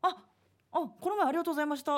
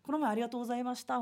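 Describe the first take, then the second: First: It is said hesitantly, as if trying to remember. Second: It is said casually and confidently, like to a friend.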